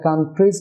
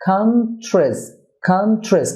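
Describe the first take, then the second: First: "কান্ট্রিজ" as kan-treez; common mispronunciation. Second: "কান্ট্রিজ" as KAN-chrez, TR like chr; correct pronunciation. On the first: Teacher quotes the usual mistake, "কান্ট্রিজ" as kan-treez. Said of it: "না হয়ে হবে". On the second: Teacher models the correction, "কান্ট্রিজ" as KAN-chrez. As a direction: say "কান্ট্রিজ" with short "chrez", falling. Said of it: "চ র হয়ে থাকে". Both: Shown as a demonstration.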